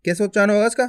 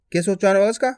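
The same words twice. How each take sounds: The two takes are said the same way.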